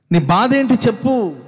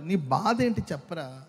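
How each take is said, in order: First: Louder, higher, slow demanding shout; insistent shout. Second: Said in the usual way. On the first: Retold or imitated. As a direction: press them to tell their pain. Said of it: "అంటూ ఉంటారు". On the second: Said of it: "కొంతమంది అంటూ ఉంటారు".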